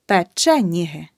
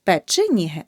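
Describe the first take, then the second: First: Печеніги with a clear е after ч; correct vowel demo. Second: Печеніги with и after ч; the mistake in печеніги, и for the second е; wrong vowel demo. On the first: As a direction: say печеніги as "pe-CHE-nihy", punching che. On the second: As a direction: say печеніги wrongly as "pe-chy-nihy". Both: Shown as a demonstration. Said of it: "Не печеніги".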